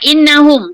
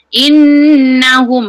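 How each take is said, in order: First: The nasal n sound is cut short. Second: The nasal n sound is held a moment. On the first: The speaker calls it wrong. "jangan innahum, tak cukup" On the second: The speaker calls it right. "bagi dia singgah sekejap"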